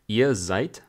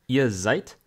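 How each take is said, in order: Both takes have the same delivery.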